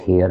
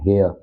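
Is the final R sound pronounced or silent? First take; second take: pronounced; silent. First: The final R sound is pronounced. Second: The final R sound is silent. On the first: The speaker calls it wrong. "Not हेयर... थोड़ा सा local touch आता है" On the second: The speaker calls it right. "Come हेयर"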